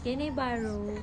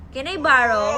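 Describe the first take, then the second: First: Tearful, soft begging; crying plea. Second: Louder tearful begging; crying plea. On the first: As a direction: whimper the request through tears. Child crying for charger. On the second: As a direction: wail the request, pushing harder. Child crying louder for charger. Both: Real, not acted.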